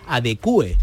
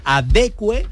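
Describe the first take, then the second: First: "adecue" split into a-de-cu-e; hiatus form. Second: "adecue" in three syllables, cue in one beat; diphthong form. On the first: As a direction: break "adecue" into four syllables. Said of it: "polisílaba con hiato". ("adecue" con hiato, a-de-cu-e) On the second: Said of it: "trisílaba con diptongo". ("adecue" trisílaba con diptongo) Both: Shown as a demonstration.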